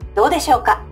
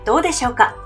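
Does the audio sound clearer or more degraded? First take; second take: degraded; clearer. First: The audio sounds degraded and less clear. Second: The audio sounds clearer and easier to hear. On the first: The speaker calls it wrong. "かなり劣化したように聞こえるかもしれませんが" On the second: The speaker calls it right. "先ほどのウェブカメラよりクリアで、かなり聞き取りやすい"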